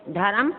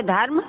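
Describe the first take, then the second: First: "धर्म" as dha-ram; two-syllable rising "धर्म"; added vowel. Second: Said in the usual way. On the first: Shown as a demonstration. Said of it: "अशुद्ध है". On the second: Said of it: "शुद्ध है, धर्म लिखें".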